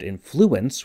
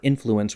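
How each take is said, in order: First: The stress is on the second syllable. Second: The stress is on the first syllable.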